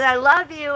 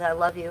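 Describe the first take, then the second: First: Higher, louder, playful I love you; a teasing, escalating I love you; playful louder love call. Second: Said in the usual way. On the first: Retold or imitated. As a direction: call it out cheerfully, upping the game. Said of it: "And he says". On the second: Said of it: "he says".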